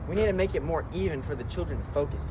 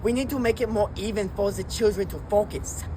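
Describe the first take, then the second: First: It is said in a plain voice. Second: It is said in a put-on accent.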